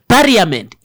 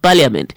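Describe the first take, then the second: First: It is said with a regional pronunciation. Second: It is said with a standard pronunciation. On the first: The speaker calls it wrong. "every word that was being mispronounced" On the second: The speaker calls it right. "instead of"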